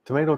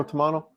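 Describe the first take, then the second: First: Tomato said as tuh-MAY-toh, pitched up; American pronunciation. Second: Tomato said as tuh-MAH-toh, pitched up; British pronunciation. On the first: Joking over two pronunciations, tomato as tuh-MAY-toh. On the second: Joking over two pronunciations, tomato as tuh-MAH-toh. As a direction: say tomato with an AH in the middle. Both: Shown as a demonstration. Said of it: "do you say Boracay or Boracay".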